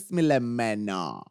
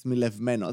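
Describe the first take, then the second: First: There is no v sound before the m. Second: There is a v sound before the m. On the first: This is the form that was actually said. The speaker calls it wrong. "είπε σμιλεμένο" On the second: This is the form that should have been said. The speaker calls it right. "Όχι σμιλευμένο"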